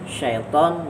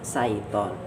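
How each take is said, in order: First: The word begins with an 'sh' sound. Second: The word begins with a plain 's' sound. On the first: The speaker calls it right. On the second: The speaker calls it wrong. "dibaca saiton, maka hilang makna syaitonnya"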